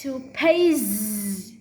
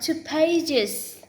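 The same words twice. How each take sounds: First: The plural ending ends in a buzzing z. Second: The plural ending ends in a hissing s. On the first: The speaker calls it right. "No, it's two pages" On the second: The speaker calls it wrong. "Not two pages"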